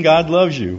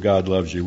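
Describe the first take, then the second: First: "loves" proclaimed louder and higher; stressed declaration. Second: Said in the usual way. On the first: Shown as a demonstration. Preacher quoting the verse to the audience: louder, higher proclamation. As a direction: ring out "God loves you" to the crowd. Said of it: "John three sixteen". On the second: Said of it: "starts with".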